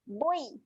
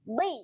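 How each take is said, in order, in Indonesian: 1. Vokal bulat bersuara sebelum i. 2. Bibir membulat tanpa suara, lalu i yang tebal. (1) "dia akan cenderung bunyi boy. ... bunyi macam tu salah eh" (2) "Ketika muncung jangan keluarkan bunyi"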